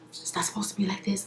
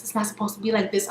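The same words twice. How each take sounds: First: Fast, much softer whisper. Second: Fast, softer half-voiced mutter; soft repeat. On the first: Retold or imitated. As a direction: whisper it quickly as he walks off. Ray J walks off, whispering. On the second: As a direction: say it under your breath, quickly.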